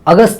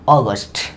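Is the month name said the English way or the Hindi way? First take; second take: Hindi; English. First: The word is said with Hindi pronunciation. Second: The word is said with English pronunciation. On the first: The speaker calls it wrong. "अगस्त नहीं, ये अगस्त जो हम बोलते हैं वो क्या है, वो एक मीनिंग है" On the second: The speaker calls it right. "लेकिन जो हम प्रोनाउंसिएशन कर रहे हैं क्या है"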